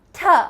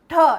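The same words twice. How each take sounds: First: The t is made with the tongue behind the teeth. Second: The t is made with the tongue curled back. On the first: The speaker calls it right. "The right way is t, So it touches the alveolar ridge and falls down" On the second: The speaker calls it wrong. "I'm rolling it backwards. That's incorrect"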